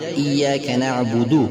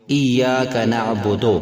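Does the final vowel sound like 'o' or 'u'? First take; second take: u; o. First: The final vowel is a rounded, narrow u sound. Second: The final vowel is an open o sound. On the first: The speaker calls it right. "इय्याका नअबुदो के बजाय" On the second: The speaker calls it wrong. "तो हमने इसको मजहूल पढ़ दिया।"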